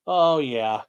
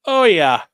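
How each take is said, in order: First: Said in the usual way. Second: "oh" stretched out loud and falling, savoring it; blissful loud oh yeah. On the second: Real, not acted. Enjoying the breeze outside, a loud pleased oh yeah. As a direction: let the breeze hit you, groan it out. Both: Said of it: "There's a breeze".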